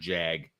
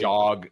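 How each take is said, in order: First: The vowel is a front 'a' sound. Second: The vowel is an open 'ah' sound. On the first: The speaker calls it wrong. "instead of jag" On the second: The speaker calls it right. "You got to say jog"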